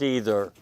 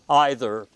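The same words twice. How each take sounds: First: It is said in a plain American accent. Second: It is said in a British, BBC-like accent.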